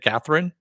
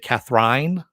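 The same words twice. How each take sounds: First: The last syllable is a short rin. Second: The last syllable rhymes with wine. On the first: "instead of Catherine?" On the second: "so you say Catherine"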